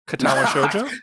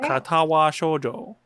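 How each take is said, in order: First: It is said quickly as one smooth flow. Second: It is said slowly with breaks between sounds. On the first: The speaker calls it right. "That was better" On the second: The speaker calls it wrong. "You're like chopping it up. You're putting a period in between each uh, consonant"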